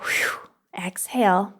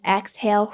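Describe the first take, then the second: First: Breathy whispered exhale. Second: Said in the usual way. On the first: Shown as a demonstration. Coach guiding listeners through a breath, whispered exhale. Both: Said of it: "Close your eyes, exhale".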